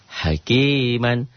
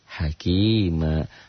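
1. Kata ini berakhir dengan bunyi n. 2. Kata ini berakhir dengan vokal a panjang.

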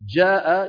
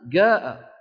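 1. الكلمة تبدأ بصوت الجيم. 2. الكلمة تبدأ بصوت الگاف. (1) "فبدلا من أن يقولوا جاء" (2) "ونفس الصوت موجود في قبيلة أخرى مكان الجيم"

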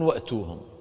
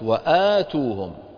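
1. الحركة بعد الهمزة قصيرة. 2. الحركة بعد الهمزة طويلة. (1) "لو كانت الهمزة فوق الألف تكون وأتوهم" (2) "تقرأ الهمزة وتقرأ الألف اللي بعدها"

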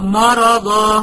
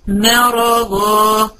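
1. صوت الميم في البداية ثقيل وسميك. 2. صوت الميم في البداية خفيف ورفيع. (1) "مش أقولها مرضا لا" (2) "ما مرققة والره والضاد مفخمين"

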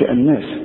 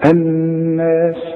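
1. النون المشددة تتقطع بسرعة من غير غنة ممدودة. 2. النون المشددة فيها غنة ممدودة بمقدار حركتين. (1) "ما تقولش الناس" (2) "النون المشددة لازم تغن بمقدار حركتين"

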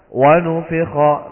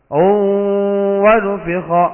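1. Bunyi w di awal itu tunggal dan biasa. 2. Bunyi w di awal itu ganda dan ditahan. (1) "Langsung aja. Wa nufikha, begitu" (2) "enggak usah dibaca. Wa nufikha, enggak perlu"

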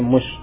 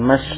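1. Vokal setelah m adalah 'u' bulat. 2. Vokal setelah m adalah 'a' terbuka. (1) "itu mimnya di bomah ya, tapi mush" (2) "bukan mash"

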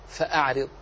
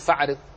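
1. تُنطق الهمزة بعد fa بوضوح. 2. تُحذف الهمزة بعد fa. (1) "فتقرأ فأعرض" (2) "ولا يجوز أن تقول فأعرض"

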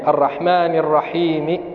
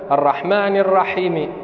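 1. تُمد الحركة بعد الحاء. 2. تُقصر الحركة بعد الحاء. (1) "لابد أن يعطي المد حقه من الحركتين" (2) "قصر الحاء من الرحيم هذا لحن قبيح يغير المعنى"

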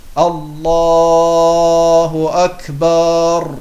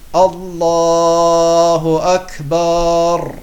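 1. Der Vokal nach dem B wird gedehnt. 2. Der Vokal nach dem B wird gedehnt.

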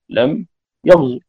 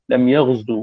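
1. الحركة الأخيرة تُنطق قصيرة. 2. الحركة الأخيرة تُمَدّ فتصير طويلة. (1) "باختلاس الحركة" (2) "بالواو"

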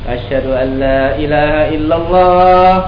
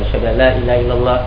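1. Ia diucapkan dengan kuat, dengan suara lantang. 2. Ia diucapkan perlahan, dengan suara pelan. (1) "Kita baca kuat-kuat" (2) "kita baca pelan-pelan yang hanya didengari oleh orang berdekatan dengan kita"

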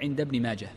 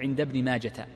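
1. ينتهي الاسم بصوت الهاء الساكنة. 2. ينتهي الاسم بصوت التاء. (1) "وإنما تقول عند ابن ماجه، فهي هاء ساكنة" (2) "لا تجعلها تاء فلا تقول عند ابن ماجة"

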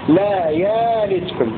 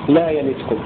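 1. تصبح الهمزة ألفا طويلة. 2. ليس في الفعل همزة أصلا. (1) "همزة مبدلة ألفا" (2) "بدون همز مثل رواية حفص"

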